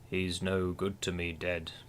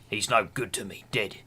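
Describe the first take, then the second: First: It is said in a posh British accent. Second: It is said in a New Zealand accent.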